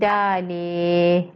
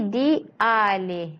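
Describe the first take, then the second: First: The vowels merge into one syllable. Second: The two vowels are said as separate syllables. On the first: The speaker calls it wrong. "Kalau tak, dia akan jadi dalih" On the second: The speaker calls it right. "Dia akan jadi dialih"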